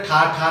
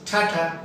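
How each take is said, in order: First: "ठा ठा" with two full hard aspirated syllables; wrong hard ठ. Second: "ठाठा" with soft puffs of air on each t; soft aspirated T. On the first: Teacher shows what to avoid, hard ठ. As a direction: hit both syllables of "ठा ठा" fully. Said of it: "ऐसा नहीं बोलना". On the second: Teacher corrects tata for students, soft aspiration. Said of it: "मतलब softly बोलना है". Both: Shown as a demonstration.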